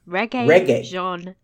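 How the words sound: The name is said with a French accent. The speaker calls it right. "Because it's French"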